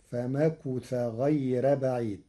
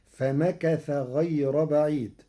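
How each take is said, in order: First: "فمكث" as famakutha; damma on kaf. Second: Said in the usual way. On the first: Shown as a demonstration. Sheikh demonstrates Warsh, "فمكث" with u after k. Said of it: "بضم الكاف". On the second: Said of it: "قرأ ورش كلمة فمكث".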